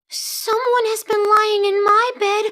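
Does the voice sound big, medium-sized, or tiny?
tiny. It is said in a wee little voice.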